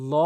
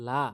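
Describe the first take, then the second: First: ল said thick and dark, as "llaw"; heavy L. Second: লা with a thin L and open "aa"; mistaken light L. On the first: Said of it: "এখানে ল বলতে হবে।". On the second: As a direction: say লা light, as plain "laa". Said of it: "অনেকেই ভুল করে বলে". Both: Shown as a demonstration.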